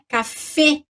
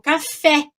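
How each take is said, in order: First: The final vowel is a closed e sound. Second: The final vowel is an open e sound. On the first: This is the French pronunciation. "Mas em francês eu digo é fechadinho" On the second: This is the Portuguese pronunciation. "em português eu digo café, abre"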